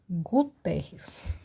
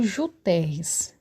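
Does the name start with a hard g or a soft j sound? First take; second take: hard g; soft j. First: The name begins with a hard g sound. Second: The name begins with a soft j sound. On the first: The speaker calls it right. "o G com U tem esse som de G" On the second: The speaker calls it wrong. "eu também não falo Juterres"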